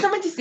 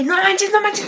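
First: No manches dropped soft, still high; fading giddy gasp. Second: No manches said high and breathless-excited; giddy schoolgirl gasp. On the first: Teen girl trailing off about her crush, soft high sigh. Retelling giddy schoolgirl reaction. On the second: Teen girl gushing over her crush, high excited squeal. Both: Retold or imitated.

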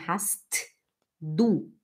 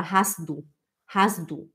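First: Hast du slowly, with a released T before du; T pronounced. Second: Hast du run together as "has-du"; T dropped. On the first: Teacher showing slow reading, hast du with T sounded. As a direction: say "hast", pause, then "du". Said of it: "a gente pronuncia o T". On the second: Teacher modelling natural speech, hast du with silent T. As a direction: link "hast du" without the T. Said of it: "A gente não fala o T". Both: Shown as a demonstration.

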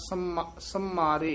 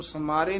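First: Right take, tight mm in ਸੰਮਾਰੇ; ਸੰਮਾਰੇ with doubled m. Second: Wrong take, loose m in ਸਮਾਰੇ; ਸਮਾਰੇ with single m. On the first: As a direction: model ਸੰਮਾਰੇ with the m held. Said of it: "ਇਸ ਤਰ੍ਹਾਂ ਉਚਾਰਨ ਕਰਨਾ". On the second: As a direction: show ਸਮਾਰੇ without the tippi. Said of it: "ਇਸ ਨੂੰ ਸਮਾਰੇ ਨਹੀਂ ਕਹਿਣਾ". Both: Shown as a demonstration.

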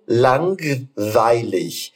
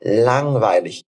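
First: Langweilig said with a hard G after the n; wrong pronunciation. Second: Langweilig with silent G, just a nasal ng; correct pronunciation. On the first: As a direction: say langweilig with the g clearly sounded. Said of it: "A gente não fala lang". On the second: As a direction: say langweilig with no g sound after the ng. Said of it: "Então a gente fala lang". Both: Shown as a demonstration.

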